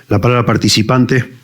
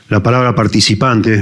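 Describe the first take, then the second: The two takes are said the same way.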